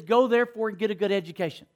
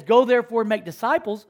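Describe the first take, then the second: First: Wrong version, rushed. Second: True verse, proclaimed. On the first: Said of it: "nowhere in the scriptures are you gonna read". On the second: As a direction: proclaim "Go therefore and make disciples" as the real scripture. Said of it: "It says". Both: Shown as a demonstration.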